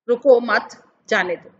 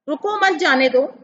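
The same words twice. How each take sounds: First: There is a pause right after 'mat'. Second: There is a pause right after 'ruko'. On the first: The listener is told not to stop but to go on. "दूसरा बोलता है मत रुको, आगे बढ़ो" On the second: The listener is told to stop. "पहला वाक्य बोलता है रोक दो, रुक जाओ"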